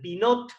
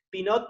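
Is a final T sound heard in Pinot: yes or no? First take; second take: yes; no. First: The final T sound is pronounced. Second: The final T sound is silent. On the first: The speaker calls it wrong. "se escribe con T final, Pinot, ¿sí? Lo pronuncio para que sepan" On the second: The speaker calls it right. "no se pronuncia la T"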